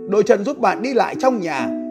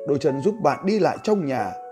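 First: The voice is pitched high. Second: The voice is pitched low and deep. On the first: "Đấy là cái bài đọc với giọng cao" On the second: "tôi sẽ xuống cái giọng nam trầm này"

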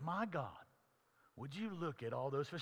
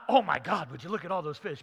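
First: It is said as a prayer addressed to God. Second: It is said as a surprised exclamation.

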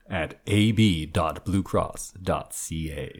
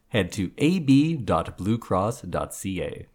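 First: It is read in a deep, dramatic, scary voice. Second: It is read in a normal announcer voice.

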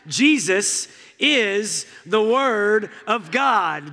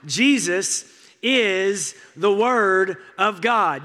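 First: It is said with driving, preacher-like energy. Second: It is said plainly, without added drive. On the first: The speaker calls it right. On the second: The speaker calls it wrong.

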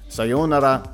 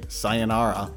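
First: It is said with a Japanese-style pronunciation. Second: It is said with an American accent.

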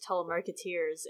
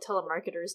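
First: The ending is a stressed, long 'eers'. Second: The ending is a short unstressed 'ers'. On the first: The speaker calls it wrong. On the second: The speaker calls it right.

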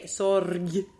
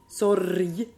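First: The word ends with a hard g sound. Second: The word ends with a soft y-like sound. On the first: The speaker calls it wrong. "But you don't say sorg" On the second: The speaker calls it right. "sort of like maybe one flip and then into the Y"

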